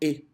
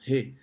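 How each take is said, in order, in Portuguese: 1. Começa direto na vogal, sem h. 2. Começa com um som de h leve e aspirado. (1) "Eles falam E" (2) "a gente fala meio Re, né? Meio aspirado"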